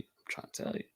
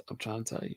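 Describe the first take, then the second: First: Repeats the line in a whisper. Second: Said in the usual way. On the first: Real, not acted. Pressing the point on viewers, whispered.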